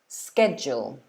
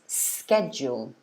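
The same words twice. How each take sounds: The two takes are said the same way.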